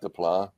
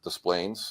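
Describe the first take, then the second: First: The name is said with French-style sounds. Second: The name is said with English-style sounds. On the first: This is not how the locals say it. The speaker calls it wrong. "not Des Plaines" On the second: This is how the locals say it. The speaker calls it right. "we pronounce it Des Plaines"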